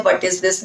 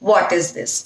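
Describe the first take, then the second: First: "What" mumbled as "vət"; "What" with a short muddy vowel; wrong "what". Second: "What" with a rounded "aw" vowel and crisp t; careful teacher model of "What is this"; "What" said as "wawt"; correct "what". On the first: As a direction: careless "What is this". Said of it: "नहीं बोलना है आपने". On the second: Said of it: "ठीक है, what". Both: Shown as a demonstration.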